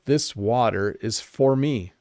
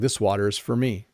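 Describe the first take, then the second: First: The word 'for' has a full, clear vowel. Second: The word 'for' is reduced, sounding like 'fur'.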